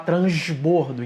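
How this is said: It is said in a Carioca accent. It matches the speaker's own home accent. "Como eu sou carioca, eu tenho que falar transbordo"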